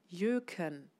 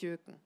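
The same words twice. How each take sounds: First: It is said slowly, syllable by syllable. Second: It is said quickly, syllables run together. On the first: The speaker calls it right. "etwas langsamer aussprechen und die Silben nacheinander" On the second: The speaker calls it wrong. "nicht Jöken. Jöken weiß keiner, was mit anzufangen"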